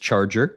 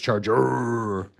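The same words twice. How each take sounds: First: The final R sound is short and normal. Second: The final R sound is drawn out the most. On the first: "the first stage was Charger" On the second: "they added an extra R each time"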